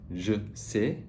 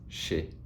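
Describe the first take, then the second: First: The j and s sounds stay separate. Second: The j and s merge into one sh.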